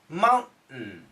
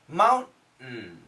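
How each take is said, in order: First: The T sound is stopped in the throat. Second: The same.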